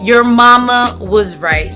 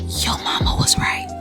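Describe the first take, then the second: First: It is said in a normal voice. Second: It is whispered.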